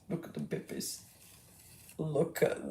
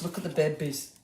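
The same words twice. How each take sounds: First: Breathless, voiceless whisper of delight. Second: Said in the usual way. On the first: Acted. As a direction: hush it like you might wake them. Cooing over baby foxes twice.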